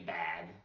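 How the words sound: It is said with a non-northern regional vowel. "I say bag"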